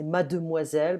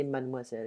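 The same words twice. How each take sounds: First: Mademoiselle with every syllable said, ma-de-moi-selle; full mademoiselle. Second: Mademoiselle run together quickly as madmwazel, with the middle e dropped; fast mademoiselle. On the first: Teacher shows the full but odd-sounding mademoiselle. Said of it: "but it sounds a bit weird". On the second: Teacher shows learners the quick everyday mademoiselle. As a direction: clip mademoiselle down to three quick syllables. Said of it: "It's faster". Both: Shown as a demonstration.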